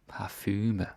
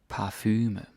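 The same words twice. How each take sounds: The two takes are said the same way.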